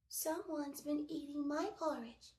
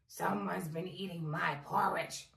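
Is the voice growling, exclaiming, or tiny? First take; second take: tiny; growling. First: The voice is small and high. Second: The voice is low and growling. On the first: "he cried in his teeny, tiny voice" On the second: "he growled"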